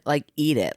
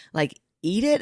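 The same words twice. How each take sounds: First: "Like, eat it." with a firm falling tune on "eat"; flat confirmation. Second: "Like, eat it?" with a rising questioning tune on "it"; incredulous question. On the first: Mom confirms to her husband, flat falling answer. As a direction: state "eat it" flatly, falling. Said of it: "I said". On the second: Husband questions the toothpaste claim, rising disbelief. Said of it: "And he was like". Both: Retold or imitated.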